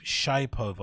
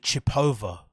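First: Shipova with "shy" as first syllable, "shy-POH-va"; retry Shipova as "shy-POH-va"; alternative pronunciation guess. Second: Chipova with a short first syllable, "chi-POH-va"; first pronunciation guess. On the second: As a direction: try Chipova as "chip-OH-va", questioning. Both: Shown as a demonstration. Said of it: "I forgot how you pronounce her name".

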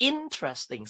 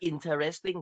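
First: "interesting" as IN-tres-ting; three syllables. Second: "interesting" drawn out as in-te-res-ting; wrong four-syllable reading. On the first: Teacher corrects pupils, three-syllable "interesting". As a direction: drop the middle "te" from "interesting", stress the start. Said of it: "interesting สามพยางค์นะลูก". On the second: Teacher shows what loses marks, four-syllable "interesting". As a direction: put a full "te" inside "interesting". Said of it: "แต่ผิด อ่านว่าไงคะ?". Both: Shown as a demonstration.

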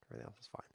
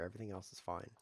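First: Very soft, half-whispered echo; hushed, barely voiced aside; muttered to himself. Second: Said in the usual way. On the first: Real, not acted. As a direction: mutter it under your breath. Repeats it to himself under breath.

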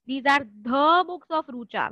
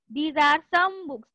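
First: "the" stressed, slow. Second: "some" leaned on, slowly; slow, weight on "some"; stress on some. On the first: Teacher contrasting "the books" with "some books". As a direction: press on "the" in "the books of". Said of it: "We cannot say". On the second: Teacher contrasting "some books" with "the books". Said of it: "कुछ information नहीं है।". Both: Shown as a demonstration.

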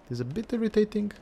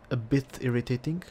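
First: Much higher, quicker voice; high, quick restatement of a complaint; high-pitched repeat. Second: Said in the usual way. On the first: Real, not acted.

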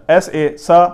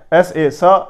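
The two takes are said the same way.

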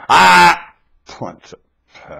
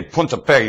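First: A sharp Ah, then Punta Fe dropped slow and hushed; mimicked mood switch. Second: Said in the usual way. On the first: Mimicking how the friend says it before a fight, mock menace. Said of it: "You go". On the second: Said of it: "Only when you say Punta Fe".

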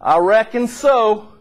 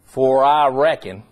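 First: Southern drawl. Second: "For I reckon" read slow, leaning on I; slow, weighty scripture read; stress on reckon. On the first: Retold or imitated. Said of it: "inculcated right into their dialect". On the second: Shown as a demonstration. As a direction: linger on "I reckon". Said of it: "Notice how this verse starts".

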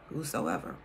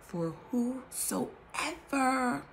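First: Said in the usual way. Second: Whosoever stretched very slowly; drawn-out whosoever. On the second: Shown as a demonstration. Stressing the key word of the verse, whosoever drawn out. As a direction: linger on every syllable of whosoever.

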